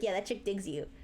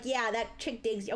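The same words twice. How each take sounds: First: It is said imitating the friend's voice. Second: It is said in the speaker's ordinary voice.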